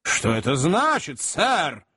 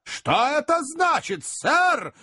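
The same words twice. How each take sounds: First: First demand, still held in check; controlled indignant question. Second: Slow demand pitched very high; acted indignant outburst, stretched out; menacing, voice raised. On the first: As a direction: ask sternly, voice only a little raised. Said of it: "повышая голос". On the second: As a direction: repeat it threateningly, voice climbing. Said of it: "грозно повторил мистер Магнус, повышая голос". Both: A narrator's reading.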